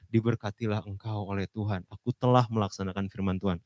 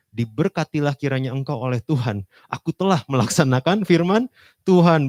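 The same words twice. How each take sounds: First: Said in the usual way. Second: Saul's boast belted out high and loud; proud Saul. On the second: Acted. Saul boasting to Samuel, loud and proud. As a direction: play Saul crowing over his success.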